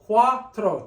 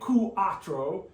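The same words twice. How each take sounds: First: The two vowels blend into one syllable. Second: The two vowels are split into separate syllables. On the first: The speaker calls it right. "two syllables" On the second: The speaker calls it wrong. "We don't say cuatro"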